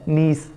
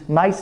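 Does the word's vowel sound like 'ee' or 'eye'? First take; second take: ee; eye. First: The vowel sounds like 'ee'. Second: The vowel sounds like 'eye'. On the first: The speaker calls it right. "ये सही और correct word है नीस" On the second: The speaker calls it wrong. "ये word अक्सर जो है ना हम गलत बोलते हैं, नाइस बोलते हैं"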